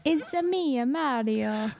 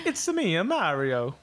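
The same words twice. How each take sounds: First: Hammed-up Italian accent, lifted then falling; Mario. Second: Italian accent. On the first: Co-host attempting the suggested line in a mock Italian accent. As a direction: put on a playful cartoon Italian accent. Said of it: "give me something to say with an Italian accent". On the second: Co-host offering a sample line in a mock Italian accent. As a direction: put on a cartoon Italian accent. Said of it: "something to say with an Italian accent". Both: Shown as a demonstration.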